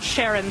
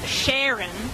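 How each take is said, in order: First: The name is said in a plain accent. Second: The name is said in a Texan accent. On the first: This is not how the friend said her name. "this is not Sharon" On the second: This is how the friend said her own name. "she said it that way every time"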